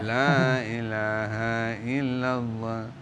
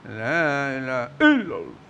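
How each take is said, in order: First: It is said gently and softly. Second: It is said loudly, like shouting. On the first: This is how people in one region recite it. "di Palu agak lembut" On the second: This is how people in another region recite it. "seperti orang berteriak"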